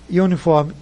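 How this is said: It is pronounced the English way. "isso na pronúncia em inglês"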